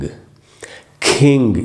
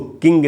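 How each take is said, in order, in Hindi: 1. k को हवा के झोंके के साथ छोड़ा जाता है। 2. k को बिना हवा के झोंके के छोड़ा जाता है। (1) "ये एस्पिरेट होगा" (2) "इसको किंग नहीं बोलना चाहिए"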